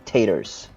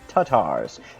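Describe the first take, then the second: First: The first syllable does not sound like 'car'. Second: The first syllable sounds like British 'car'. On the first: The speaker calls it wrong. "It's not taters" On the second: The speaker calls it right. "first you say car in a British way without the R, ka, and then say it in a American way. Tars"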